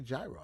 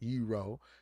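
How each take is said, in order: First: The word begins with a 'j' sound. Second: The word begins with a 'y' sound. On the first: This is the American way of saying it. "we're in America. I say gyro" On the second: This is how people from the dish's origin say it. "I know how you want to say it"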